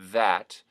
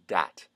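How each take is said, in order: First: The word starts with a voiced TH. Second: The word starts with a D sound. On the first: "the voiced th" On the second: "becoming a D sound"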